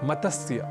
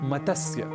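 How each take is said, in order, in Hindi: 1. मध्य के व्यंजनों के बीच एक स्वर डाला जाता है। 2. मध्य के व्यंजनों के बीच एक स्वर डाला जाता है।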